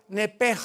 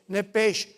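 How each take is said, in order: First: The word ends with a throaty 'j' sound. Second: The word ends with a 'sh' sound. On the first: "En el hebreo se pronuncia la S H como J" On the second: "como suena"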